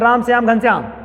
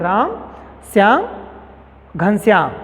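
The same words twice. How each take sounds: First: The names run together without pauses. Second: There is a short pause after each name.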